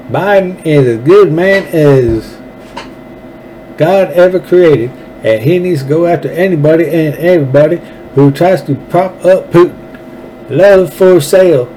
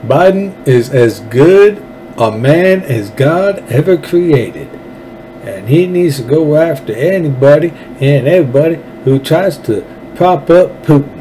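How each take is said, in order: First: Higher-pitched, exaggerated mock politician's accent; Lindsey Graham accent. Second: Put-on Lindsey Graham accent. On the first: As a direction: ham up the senator's little accent, pitched high. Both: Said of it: "Let me read it again in that little accent".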